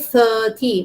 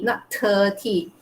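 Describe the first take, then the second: First: The word begins with a th sound. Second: The word begins without a th sound. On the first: The speaker calls it right. "the sound of th" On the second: The speaker calls it wrong.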